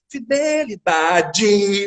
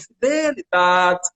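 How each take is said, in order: First: Rio accent, every syllable stressed, di like dji. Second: Local accent with the word endings swallowed.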